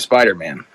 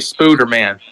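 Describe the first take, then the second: First: The first vowel sounds like 'eye'. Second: The first vowel sounds like 'oo'. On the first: The speaker calls it wrong. "You're pronouncing it wrong" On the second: The speaker calls it right. "That that's the correct pronunciation"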